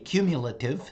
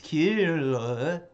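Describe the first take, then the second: First: The word is said clearly and in full. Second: The word comes out garbled and tongue-tied. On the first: This is the intended pronunciation. The speaker calls it right. "I went to say cumulative" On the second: The mouth was not warmed up enough. The speaker calls it wrong. "all I could pull off because my tongue got a little tongue tied was cumulative"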